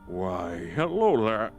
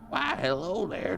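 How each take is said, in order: First: It is said in the speaker's normal voice. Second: It is said in a put-on old man's voice.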